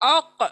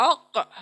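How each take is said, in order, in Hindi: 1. आख़िरी 'k' दोहरी गूँज के साथ उछलता है। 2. आख़िरी 'k' दोहरी गूँज के साथ उछलता है।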